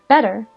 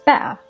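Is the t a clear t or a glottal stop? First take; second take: clear t; glottal stop. First: The t is a clear t sound. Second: The t is a glottal stop.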